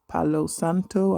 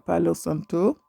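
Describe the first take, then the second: First: The name is said with an English accent. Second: The name is said with a Spanish accent.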